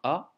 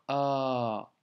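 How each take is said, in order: First: The vowel is short and brief. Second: The vowel is drawn out and long. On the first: The speaker calls it wrong. "C'est pas un A" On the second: The speaker calls it right. "un A allongé"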